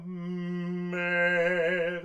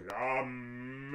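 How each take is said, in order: First: "mer" sung with the M on the right pitch. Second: "La mer" sung with a pitchless, heavy M; demonstrating the mistake; wrong M pitch. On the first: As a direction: sing "mer" so only the A and R remain. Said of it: "Si tu mets les M sur la bonne hauteur". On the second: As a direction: sing "La mer" braking on the M. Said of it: "ça fait un pâté et ça freine". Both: Shown as a demonstration.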